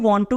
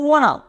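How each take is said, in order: First: It is said as two full separate words. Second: It is said as one contracted word. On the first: "one two की जगह पे" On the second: "short form यानी contraction"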